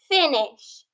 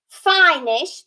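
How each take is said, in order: First: The first vowel sounds short. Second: The first vowel sounds long. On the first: The speaker calls it right. "it's finish" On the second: The speaker calls it wrong.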